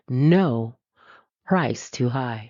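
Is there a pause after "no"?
yes. There is a pause after no.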